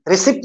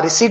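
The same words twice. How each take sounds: First: "ri-SIPT", the silent P wrongly voiced in रिसिप्ट; mispronounced रिसिप्ट with P. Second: रिसीट with the P left silent, long "ee" before the T. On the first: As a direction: say रिसिप्ट with the P sounded before the T. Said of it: "रिसिप्ट नहीं बोलना". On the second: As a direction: say रिसीट as "ri-SEET", no P sound. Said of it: "हाँ, रिसीट बोलना". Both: Shown as a demonstration.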